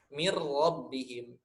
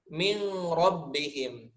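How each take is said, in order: First: The n merges into a doubled r. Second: The n is pronounced before the r. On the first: The speaker calls it right. "tapi mir rabbihim" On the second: The speaker calls it wrong. "bukan mi min rabbihim, salah"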